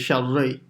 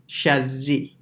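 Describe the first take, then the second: First: The vowel after the r sounds dull. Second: The vowel after the r is a clear 'ee'. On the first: The speaker calls it wrong. "if you keep your mouth normal, say sharri, the the e turns into a r sound" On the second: The speaker calls it right. "you have to smile slightly"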